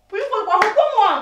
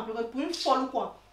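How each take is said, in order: First: High, loud angry challenge; jealous outburst at raised pitch; furious shout. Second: Said in the usual way. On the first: Acted. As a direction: explode at him, demanding an answer. Repeats the question, blowing up.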